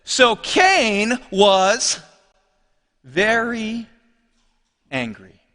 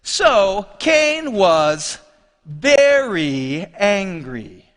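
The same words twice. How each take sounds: First: Slow scripture reading. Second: Very leaned on in a slow reading; slowly, weight the word very; stress on very. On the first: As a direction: read slowly, pausing between words. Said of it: "Verse five says this". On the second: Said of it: "It's the inclusion of this word, very". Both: Shown as a demonstration.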